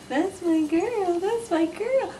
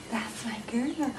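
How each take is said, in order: First: Much higher, slow sing-song; high sing-song praise. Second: Whispered praise; whispering. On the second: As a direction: breathe the praise softly, no voice. Praising dog softly. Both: Real, not acted.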